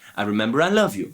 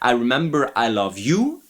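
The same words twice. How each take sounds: First: The stress is on love. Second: The stress is on you.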